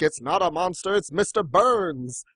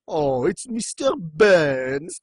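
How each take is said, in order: First: Lightly acted cartoon explainer, drawn-out ending; mock reassurance. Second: Very slow, drawn-out cartoon realisation; mock dawning horror. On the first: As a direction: gently set the panicked mob straight, half-acted. Acting out the calm corrector. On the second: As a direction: stretch the name out in hammed-up recognition. Crowd reacts to the name.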